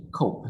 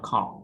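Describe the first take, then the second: First: "Cope" with a long O, as in hope; long O sound. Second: "cop" with a short, open O; the wrong take, "cop" with a short vowel; short O sound. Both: Shown as a demonstration. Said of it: "Cope, not cop".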